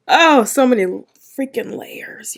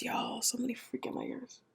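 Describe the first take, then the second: First: Loud high burst dropping into a whisper; amazed exclamation collapsing to a whisper; overwhelmed outburst. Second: Very soft, voiceless repeat; hushed, barely-there whisper; awed whisper. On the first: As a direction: start big and high, then lose the voice. Overwhelmed by the episode. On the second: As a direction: whisper it, as if overwhelmed. Repeats it, overwhelmed by episode. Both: Real, not acted.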